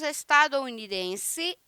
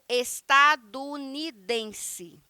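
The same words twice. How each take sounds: First: An 'o' sound is said before 'unidense'. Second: No 'o' sound is said before 'unidense'. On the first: "O primeiro estadunidense" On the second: "eu suprimo a letra O e fica estadunidense, tudo junto"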